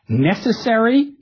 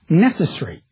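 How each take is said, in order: First: Every syllable of the word is pronounced. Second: A syllable of the word is dropped. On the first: "Americans tend to pronounce all the syllables in a word" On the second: "British speakers tend to level out"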